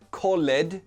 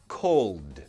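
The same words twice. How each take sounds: First: The ending is not a plain d sound. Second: The ending is a plain d sound. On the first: The speaker calls it wrong. "not called" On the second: The speaker calls it right. "we pronounce the ed like a d sound"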